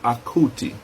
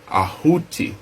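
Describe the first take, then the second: First: The middle consonant is a hard k sound. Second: The middle consonant is a breathy h sound. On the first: The speaker calls it wrong. "Not Akuti" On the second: The speaker calls it right. "this is not a K"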